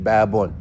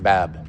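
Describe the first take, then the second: First: The word ends with an added -un sound. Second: The word ends bare, with no added vowel. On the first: "Some of them read it babun" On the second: "some of them just read it bab"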